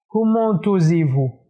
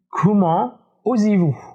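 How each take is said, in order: First: The t of comment is sounded. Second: The t of comment is silent. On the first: The speaker calls it wrong. "Et pas comment osez-vous? ... c'est pas correct" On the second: The speaker calls it right. "Le seul cas où on prononce le T du mot comment, c'est dans la phrase comment allez-vous"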